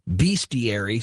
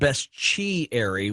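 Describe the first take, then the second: First: The S and T are said separately. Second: The S and T merge into a ch sound.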